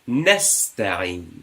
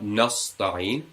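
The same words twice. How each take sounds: First: The s is plain, said with spread lips. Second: The s is emphatic, said with rounded lips. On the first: The speaker calls it right. "We smile" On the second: The speaker calls it wrong.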